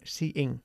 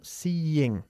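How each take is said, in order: First: The vowels run together with no glide. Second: A y-like glide separates the vowels. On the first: The speaker calls it wrong. "No decimos seeing" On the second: The speaker calls it right. "como casi una Y ahí en medio"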